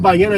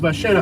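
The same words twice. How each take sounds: First: The double L is said the standard way. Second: The double L is a ch-like sound. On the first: "instead of ballena" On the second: "es ballena"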